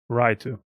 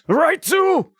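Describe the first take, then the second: First: It is said in a flat, bored voice. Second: It is said in an emotional, exasperated voice. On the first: "the standard sounded completely bored" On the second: "the emotional option"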